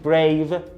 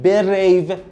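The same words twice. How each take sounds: First: The b and r are joined directly. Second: A short vowel splits the b and r. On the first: The speaker calls it right. "باید بگیم brave" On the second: The speaker calls it wrong. "نخونیم brave"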